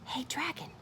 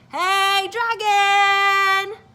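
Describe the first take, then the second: First: It is whispered very softly. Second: It is shouted very loudly.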